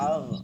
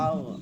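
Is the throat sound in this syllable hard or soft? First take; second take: soft; soft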